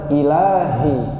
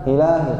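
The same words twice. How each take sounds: First: The final 'hi' sound is clear and distinct. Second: The final 'hi' sound is weak and unclear. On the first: The speaker calls it right. "yang benar" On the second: The speaker calls it wrong.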